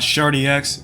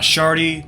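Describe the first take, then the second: First: The name ends with 'dee' then a separate 'ex'. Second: The name ends in 'dee' with no x sound. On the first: "not Shardy X" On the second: "Not Shardy"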